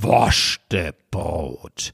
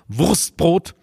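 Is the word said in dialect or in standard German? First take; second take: dialect; standard. First: It is said in open regional dialect pronunciation. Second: It is said in tight standard German pronunciation. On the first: The speaker calls it right. "Aber Wurstbrot, da öffnet sich der Gaume" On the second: The speaker calls it wrong. "mit Ihrem Hochdeutsch. Wurstbrot, 5 Konsonanten hintereinander"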